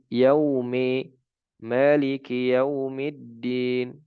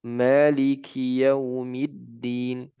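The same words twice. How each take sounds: First: Slow, "maliki" with its last i tilted toward e; faulty tilted kasrah; wrong imala. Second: Slow, "Maliki" ending on a pure clear i; full kasrah. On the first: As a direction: lean the kasrah of "maliki" into an e sound. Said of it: "Salah, ya". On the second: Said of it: "Harus kasrah". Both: Shown as a demonstration.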